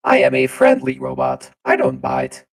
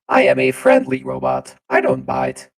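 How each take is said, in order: First: It is said like a Twitch presenter. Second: It is said like a Twitch presenter.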